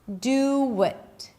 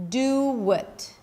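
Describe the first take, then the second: First: The words are joined by a W sound. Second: The same.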